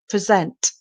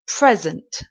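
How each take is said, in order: First: The stress is on the second syllable. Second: The stress is on the first syllable. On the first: It is a verb meaning to show something. "the stress is on the second part of the word, sent" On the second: It is a noun meaning a gift. "the stress is on the first part of the word, the first syllable"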